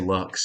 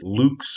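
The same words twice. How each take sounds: First: The word is given an American pronunciation. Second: The word is given its Latin pronunciation. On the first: This is how Americans say it. "but we're Americans, so we say lux" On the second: This is how the word ought to be said. "I suppose I should pronounce it lux"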